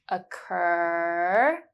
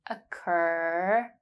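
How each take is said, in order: The two takes are said the same way.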